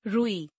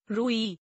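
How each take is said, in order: First: Said in the usual way. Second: रुई with wrongly long first oo, "rooee"; mispronounced. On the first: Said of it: "शुद्ध". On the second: Shown as a demonstration. Teacher showing a u error, mispronounced with long oo. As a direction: stretch the u of रुई. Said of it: "अनशुद्ध".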